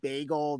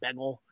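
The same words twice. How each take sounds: First: It is said in a standard accent. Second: It is said in a local New Jersey accent.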